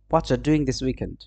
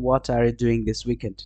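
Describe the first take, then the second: First: The words are squeezed together into a reduced form. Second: Each word is said fully and separately. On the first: "নেটিভরা এইভাবে কথা বলবে।" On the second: "হোয়াটস মানে হচ্ছে"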